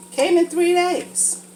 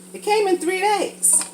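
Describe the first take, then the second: First: "Came in three days" drawn out slowly, each word weighted; slow emphatic repeat. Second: Said in the usual way. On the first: Shown as a demonstration. Telling viewers how fast the package came, slow emphatic repeat. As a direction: repeat it slower, leaning on "came".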